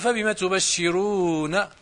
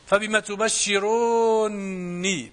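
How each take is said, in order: First: The final n is single and followed by a. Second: The final n is doubled, with no final y sound. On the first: The n is only the plain verb ending. "بفتح النون" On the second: The object 'me' is kept in the merged n. "بالنون مشددة وحذف ياء المتكلم"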